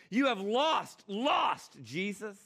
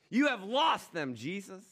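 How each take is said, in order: First: Higher and louder, hammering the word lost; shrill Satan taunt. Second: Higher, louder gloating taunt; gloating Satan. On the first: Satan jeers at Jesus, pushing the taunt higher. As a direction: jeer it out at the top of the voice. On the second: Satan taunts Jesus that humanity is lost, gloating higher. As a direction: crow over him like a victorious devil. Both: Acted.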